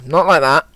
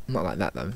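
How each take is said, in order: First: Loud and firm; emphatic correction. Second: Said in the usual way. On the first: Real, not acted. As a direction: stamp the correction down hard.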